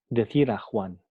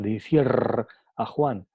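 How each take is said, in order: First: The r is a single quick tap. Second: The r is a long multiple trill. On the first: The speaker calls it right. "se pronuncia R como simple" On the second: The speaker calls it wrong. "no se pronuncia decir a Juan"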